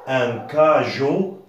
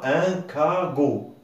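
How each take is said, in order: First: The middle consonant is a soft j sound. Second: The middle consonant is a hard g sound. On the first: The speaker calls it right. "on pourrait prononcer la lettre je comme le J jardin" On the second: The speaker calls it wrong. "ce n'est pas"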